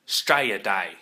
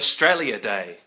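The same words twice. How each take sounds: First: Australia is pronounced in a clipped Australian way. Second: Australia is pronounced fully and carefully.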